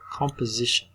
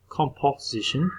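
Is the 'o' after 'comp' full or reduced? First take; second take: reduced; full. First: The second vowel is reduced to a schwa. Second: The second vowel is a full clear O. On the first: The speaker calls it right. "This one is a schwa" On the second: The speaker calls it wrong. "It's not composition"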